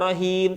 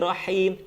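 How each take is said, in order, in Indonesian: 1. Huruf h-nya biasa, ringan. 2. Huruf h-nya berdesah kuat. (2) "seperti orang yang kepedesan"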